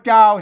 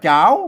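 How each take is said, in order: First: The syllable is said with a low tone. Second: The syllable is said with a rising tone. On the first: "เสียงเอก" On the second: "เสียงจัตวา"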